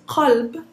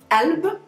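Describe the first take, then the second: First: The word begins with a deep q sound. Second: The word begins with a glottal stop. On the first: This is the standard form. "Usually it's قلب" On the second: This is the spoken dialect form. "we pronounce it just a simple glottal stop"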